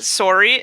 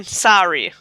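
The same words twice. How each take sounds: First: "sorry" with a rounded "sore" vowel; Canadian "sorry". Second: "sorry" with an open "sah" vowel; American "sorry". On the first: Canadian compares two pronunciations, "sorry" as SORE-ee. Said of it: "I don't get it". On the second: Canadian compares two pronunciations, "sorry" as SAH-ree. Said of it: "Which one's". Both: Shown as a demonstration.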